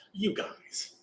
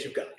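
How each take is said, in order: First: Hushed call to the monks; whisper. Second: Said in the usual way. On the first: Retold or imitated. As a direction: whisper so the sleeper won't wake. Waking monks while Devadatta sleeps.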